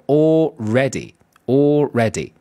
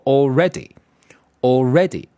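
First: Already split slowly into two words, all ready, with a small gap; two separate words. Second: Already with the weight on its second syllable, al-READ-y; stress on second syllable. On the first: Teacher showing students the two-word all ready, slow and separated. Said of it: "第二个是俩词儿". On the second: Teacher modelling already for the class, stress on the second syllable. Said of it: "重读从第二个音节开始啊". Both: Shown as a demonstration.

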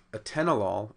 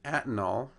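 First: Atenolol said a-TEN-o-lol; stress on second syllable. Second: Atenol said AT-nol; stress on first syllable. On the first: Lecturer showing where accent should be, atenolol stressed on second syllable. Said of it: "on the second syllable". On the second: Lecturer showing the changed accent, atenol stressed on first syllable. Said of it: "accent on the first syllable". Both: Shown as a demonstration.

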